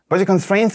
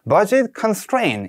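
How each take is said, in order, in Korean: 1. 빠르게 말하면서 소리가 뭉개지고 흐릿했습니다. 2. 느리고 차분하게 말하면서 소리가 또렷했습니다. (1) "너무 단어가 좀 발음이 뭉개져서 들렸어요" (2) "좀 차분하게"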